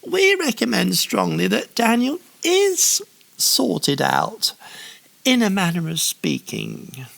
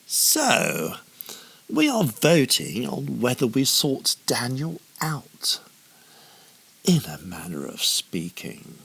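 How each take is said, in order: First: High, sneering snarl. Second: Lightly voiced haughty official; a hint of a pompous robed man. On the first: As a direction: snarl it like a scheming official. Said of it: "snarled the other administrator". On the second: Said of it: "announced a haughty man". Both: A narrator's reading.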